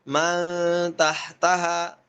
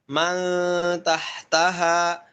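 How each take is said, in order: Both takes have the same delivery.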